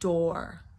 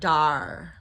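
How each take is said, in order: First: The final R sound is clearly pronounced. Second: The final R sound is dropped. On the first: The speaker calls it right. "Don't try not try to avoid the R" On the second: The speaker calls it wrong. "not dar"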